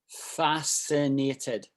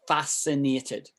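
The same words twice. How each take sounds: First: It is said very slowly. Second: It is said at normal speed.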